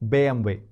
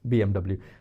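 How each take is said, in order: First: The letters are named with German letter sounds. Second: The letters are named with English letter sounds. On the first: The speaker calls it right. "That's how they say German car" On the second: The speaker calls it wrong. "not B M W"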